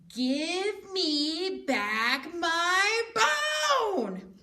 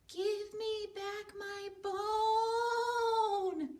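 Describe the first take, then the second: First: It is said loudest of all. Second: It is said softly and quietly.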